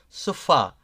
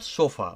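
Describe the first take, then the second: First: The stress is on the last syllable. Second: The stress is on the first syllable. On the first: The speaker calls it right. "It it goes a, a different way" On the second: The speaker calls it wrong. "it's not sofa"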